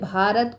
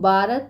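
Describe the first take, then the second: First: The first consonant is said with aspiration. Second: The first consonant is said without aspiration.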